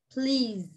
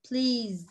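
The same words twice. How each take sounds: The two takes are said the same way.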